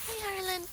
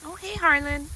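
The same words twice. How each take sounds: First: Very high, soft coo. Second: High, gentle greeting. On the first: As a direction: coo his name sweetly. Greeting again. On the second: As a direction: coo hello. Greeting the goats. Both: Real, not acted.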